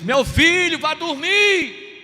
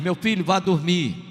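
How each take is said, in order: First: It is shouted very loudly. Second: It is said at a normal, calm volume.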